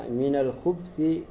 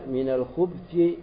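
No difference in how they are said.

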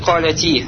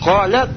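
First: The word ends with a short i vowel. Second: The word ends on a bare t consonant. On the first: The speaker calls it wrong. "ты уже не будешь говорить «каляти»" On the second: The speaker calls it right. "а скажешь «калят»"

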